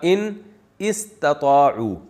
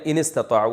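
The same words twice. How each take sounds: First: The two words are said apart, alif sounded. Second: The two words run together, alif silent. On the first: "असल में था" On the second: "मिला के पढ़ा दिया ... अलिफ साइलेंट हो गया"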